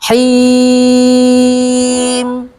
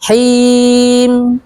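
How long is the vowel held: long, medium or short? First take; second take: long; short. First: The vowel before the final m is held long. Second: The vowel before the final m is held briefly. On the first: "Sukun dengan tiga alif" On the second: "Sukun dengan satu alif"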